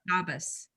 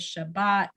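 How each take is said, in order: First: Ashkenazic form, ending in s. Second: Sephardic form, ending in t.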